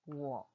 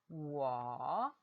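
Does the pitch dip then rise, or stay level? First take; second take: level; dipping. First: The pitch stays level without a tone. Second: The pitch dips low, then rises.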